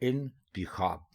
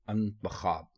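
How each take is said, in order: First: The word begins with an 'i' vowel. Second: The word begins with an 'a' vowel. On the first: The speaker calls it right. "ये दुरुस्त लफ्ज है इंतिखाब" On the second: The speaker calls it wrong. "लोग इसको बोलते हैं अंतखाब"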